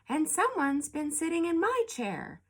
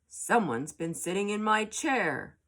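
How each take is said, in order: First: It is said in a medium-sized voice. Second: It is said in a big, deep voice. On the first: Mother Bear is speaking. "in a middle-sized voice" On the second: Father Bear is speaking. "in a great big voice"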